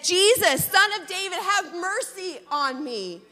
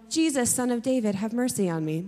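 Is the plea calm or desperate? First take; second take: desperate; calm. First: It is said desperately, with urgency. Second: It is said calmly, without urgency.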